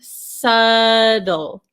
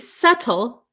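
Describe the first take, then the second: First: The middle T is a quick flap. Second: The middle T is a crisp, full T. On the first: "in American English, this T becomes a flap T" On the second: "we have this T sound, right? ... So you could say subtle"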